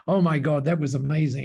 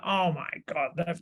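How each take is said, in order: First: Said in the usual way. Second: Put-on abandoned stab at a Canadian accent; attempted Canadian accent. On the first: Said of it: "I can't do the Canadian accent, but". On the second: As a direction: try a Canadian accent, not very convincingly. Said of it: "I can't do the Canadian accent".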